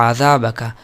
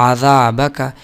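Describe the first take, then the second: Both takes have the same delivery.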